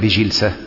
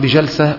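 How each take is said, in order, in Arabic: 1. الصوت الذي بعد الجيم هو 'i'. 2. الصوت الذي بعد الجيم هو 'a'. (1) "بالكسر" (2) "بالفتح"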